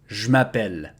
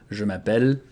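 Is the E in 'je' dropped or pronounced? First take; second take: dropped; pronounced. First: The E in 'je' is dropped, contracted. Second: The E in 'je' is fully pronounced.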